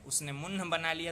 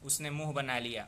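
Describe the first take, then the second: First: A full n consonant is sounded before h. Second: The vowel is nasalized with no separate n. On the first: The speaker calls it wrong. "तो नहीं बोलते हैं" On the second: The speaker calls it right. "ऐसे हम लोग बोलते हैं ना"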